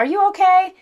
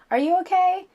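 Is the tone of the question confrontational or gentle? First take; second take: confrontational; gentle. First: It sounds sharp and confrontational. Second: It sounds soft and gentle. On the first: The speaker is accusing the other person. The speaker calls it wrong. "not with the attitude like" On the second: The speaker cares about the other person. The speaker calls it right. "I ask you to do this with a soft voice"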